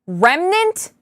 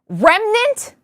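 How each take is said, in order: First: It is said in a deeper, bassier voice. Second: It is said in a higher, lighter voice.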